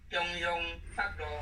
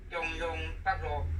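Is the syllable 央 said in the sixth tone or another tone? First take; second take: sixth tone; sixth tone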